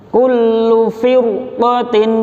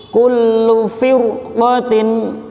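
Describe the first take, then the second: No difference in how they are said.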